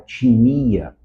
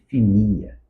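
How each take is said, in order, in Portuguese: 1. A palavra começa com um som de t. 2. A palavra começa com um som de f. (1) "em vez de você falar timia" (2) "seria assim"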